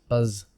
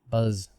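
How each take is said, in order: No difference in how they are said.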